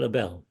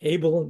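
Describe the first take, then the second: First: Abel as uh-BELL, stress on the second syllable; mistaken pronunciation. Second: Abel as AY-bul, stress on the first syllable; correct pronunciation. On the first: Guest shows host the mistaken surname, Abel said uh-BELL. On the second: Guest corrects host on his surname, Abel said AY-bul. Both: Shown as a demonstration. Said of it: "let me just correct the pronunciation".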